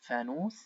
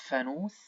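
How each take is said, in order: No difference in how they are said.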